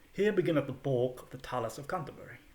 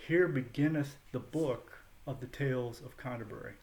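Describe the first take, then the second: First: It is read with Middle English vowels. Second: It is read with modern English vowels. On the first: "the way the the narrator pronounced it when I first heard someone read in Middle English" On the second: "reads in modern English"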